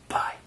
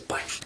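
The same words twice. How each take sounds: First: It is said loudly. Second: It is said quietly.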